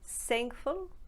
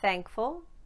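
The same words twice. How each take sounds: First: The word begins with an s sound. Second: The word begins with an unvoiced th sound. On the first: "turn it into either an S" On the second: "no voice produced on the th"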